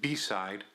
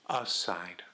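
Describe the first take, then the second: First: The word begins with a 'be' sound. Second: The word begins with a plain 'a' sound. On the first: This is the standard form she did not use. "not beside" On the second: This is the regional form the mother used.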